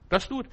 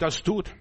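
First: Das tut, pitched higher with tut rising; emphatic Das tut, said high; higher, insistent repeat. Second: Das tut with tut rising; stress on tut. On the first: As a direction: hammer the command home a notch higher. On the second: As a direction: lift the word tut. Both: Shown as a demonstration.

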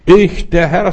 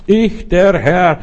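First: Voice of God. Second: Higher, slow and solemn, drawn out; slow God voice. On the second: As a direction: proclaim as the Lord, slowly. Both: Acted. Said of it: "sagt hier mein Gott".

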